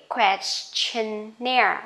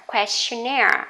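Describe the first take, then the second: First: Questionnaire said slowly, stress on -naire; slow model word. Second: Questionnaire at natural pace, stress on -naire; normal speed word. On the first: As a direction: drag out Questionnaire for the class. (đọc chậm Questionnaire) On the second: (đọc Questionnaire tốc độ thường) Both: Shown as a demonstration. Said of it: "Cứ nhấn vào chính cái âm này".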